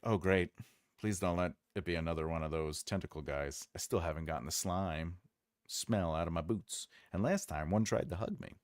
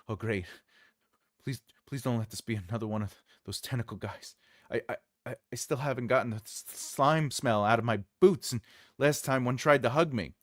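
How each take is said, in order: First: It is read in a neutral tone. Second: It is read in a fearful, stammering tone.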